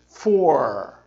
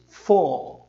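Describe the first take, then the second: First: "four" with a strong curled American R; American accent, roll the R of "four". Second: "four" British, R dropped, "foh"; British accent, no R at the end of "four". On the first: Teacher contrasts accents, American R curled. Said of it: "americano diz four". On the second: Teacher contrasts accents, British R dropped. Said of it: "o britânico diz four". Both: Shown as a demonstration.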